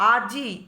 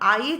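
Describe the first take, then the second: First: The i sound comes after the j. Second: The i sound comes before the j. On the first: "বর্গের জোর পরে ইকারটা আসছে" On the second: "বর্গের জোর আগে হর্ষ ইকারটা উচ্চারিত হয়ে যাচ্ছে"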